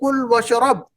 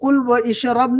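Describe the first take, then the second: First: The vowel before 'shrab' is dropped after 'wa'. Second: The vowel before 'shrab' is pronounced after 'wa'. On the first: The speaker calls it right. "हमज़तुल वस्ल के तरीके का इस्तेमाल करके पढ़ेंगे" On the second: The speaker calls it wrong. "कुल व इशरब नहीं पढ़ेंगे हम"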